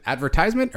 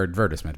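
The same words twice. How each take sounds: First: "advertisement" said ad-ver-TIZE-ment; "advertisement" with long i. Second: "advertisement" said ad-VER-tis-ment; British pronunciation of "advertisement". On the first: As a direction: say "advertisement" with a stressed "tize" syllable. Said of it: "advertisement or advertisement, by the way?". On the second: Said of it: "I think it's the British way". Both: Shown as a demonstration.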